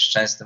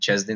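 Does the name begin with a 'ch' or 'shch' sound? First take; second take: shch; ch. First: The name begins with a 'shch' sound. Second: The name begins with a plain 'ch' sound. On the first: This is the name's own form. The speaker calls it right. "Anglicy mieli problemy wymawiać Szczęsny" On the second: This is how foreign speakers said it. The speaker calls it wrong. "mówili Czesny"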